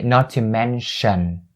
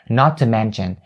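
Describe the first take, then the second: First: The middle consonant of 'mention' is 'sh'. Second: The middle consonant of 'mention' is 'ch'. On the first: This follows the dictionary pronunciation. "They don't say not to mention" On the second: This is how most North Americans say it.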